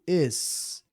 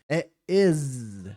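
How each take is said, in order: First: The word ends with a hissing S sound. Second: The word ends with a buzzing Z sound. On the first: "não é tipo is que você ouve deles" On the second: "o falante nativo de inglês fala com som de Z, de zebra"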